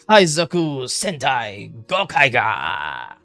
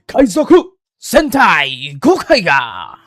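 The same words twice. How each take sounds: First: It is said in the speaker's ordinary voice. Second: It is said in a dramatic announcer voice. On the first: The speaker calls it wrong. "Wait, no, no, no" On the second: The speaker calls it right. "let me say it in a, uh, you know, uh, Super Sentai announcer"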